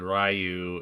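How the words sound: The name is said the American way. This is how it is said in the States. "Ryu in the States"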